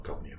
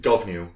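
First: "Govnew" said as GOV-new, two syllables with an open "o"; wrong pronunciation. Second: "Govnew" said as GUV-uh-new, three syllables; correct pronunciation. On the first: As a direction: clip "Govnew" into two beats, the mistaken way. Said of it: "Not Govnew". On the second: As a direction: say "Govnew" with a short "uh" sound and a schwa in the middle. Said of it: "pronounced Govnew". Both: Shown as a demonstration.

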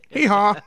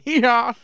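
First: Said in the usual way. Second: High, loud donkey hee-haw; donkey bray. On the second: Pretend. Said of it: "Just a quick one".

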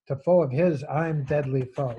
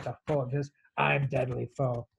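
First: Louder, emphatic hard-line reading. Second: Tough cowboy reading. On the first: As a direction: recite it as a forceful hard line. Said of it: "you get these really hard lines". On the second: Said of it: "That's a John Wayne line". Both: Acted.

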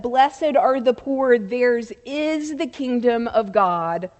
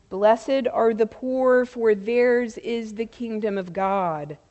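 First: "is" punched as the key word; stress on IS. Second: Said in the usual way. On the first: Shown as a demonstration. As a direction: hit the word "is" to insist on the present tense. Contrasts "will be" with "is.

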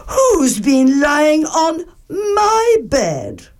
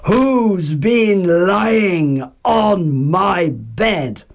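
First: Much higher, slow, tearful; Mother Bear finds her bed used, high and tearful; Mother Bear, upset. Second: Mild mock roar. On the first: Acted. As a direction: plead it like a hurt mama bear. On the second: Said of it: "and roared".

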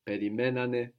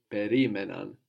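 First: Περιμένανε stressed on μέ, the accent left in place. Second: Περίμεναν with the stress pulled back to ρί; accent pulled back. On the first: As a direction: say περιμένανε with the weight on μέ. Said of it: "can leave it where it is". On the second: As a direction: say περίμεναν, hitting ρί. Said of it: "pull our accent back into the past". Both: Shown as a demonstration.

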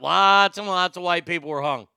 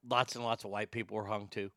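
First: Louder, stress on lots; emphatic statement. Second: Tennessee-free mumble, softer and quick; tossed off under the breath, fast; quiet aside. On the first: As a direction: press the point home, firmly. Repeated louder as a firm point. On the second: Muttered aside, then repeated emphatically. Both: Real, not acted.

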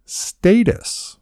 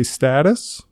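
First: Status with long A, STAY-tus; correct pronunciation. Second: Status with short A, STAT-us; short-A pronunciation. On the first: Host correcting co-host, showing status as STAY-tus. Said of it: "It's status". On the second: Host quizzing co-host, showing status as STAT-us. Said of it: "or give them a status". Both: Shown as a demonstration.

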